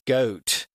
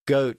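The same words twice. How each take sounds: First: The vowel is long and drawn out. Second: The vowel is plain and of ordinary length. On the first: "the O sound also had an extended sound" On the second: "instead of goat"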